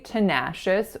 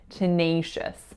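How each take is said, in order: First: The second-syllable vowel is a plain, undiphthongized vowel. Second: The second-syllable vowel is a diphthongized A sound. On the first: The speaker calls it wrong. "we do not say tenacious" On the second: The speaker calls it right. "we say tenacious"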